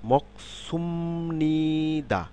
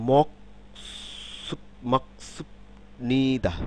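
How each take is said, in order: First: মকসুমনিদা with the b softened to a long m; slow, higher model of মকসুমনিদা, m before n; b turned to m. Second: মকসুব নিদা with a hard b before a separate নিদা; spelled-out মকসুব, b kept unchanged; syllable-by-syllable reading. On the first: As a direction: stretch মকসুমনিদা out slowly, humming the m. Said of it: "মিউম হয়ে যাবে". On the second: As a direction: read মকসুব, pause, then নিদা, unblended. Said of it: "আসলে কি মকসুব নিদা উচ্চারণ হবে? না". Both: Shown as a demonstration.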